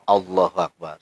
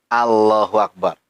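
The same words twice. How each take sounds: First: The L in Allah is heavy and thick. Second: The L in Allah is light and thin. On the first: The speaker calls it right. "tartilnya Allahu Akbar" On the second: The speaker calls it wrong. "mestinya dibaca tebal, dia baca tipis"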